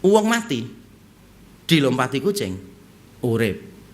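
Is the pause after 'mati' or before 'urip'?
before urip. A pause comes right before the word 'urip'. A dead person stepped over by a cat comes alive. "Kalau diganti jedanya"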